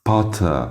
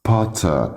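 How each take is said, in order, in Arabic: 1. صوت الـ r الأخير يُحذف. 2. صوت الـ r الأخير يُحذف.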